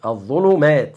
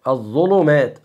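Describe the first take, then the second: No difference in how they are said.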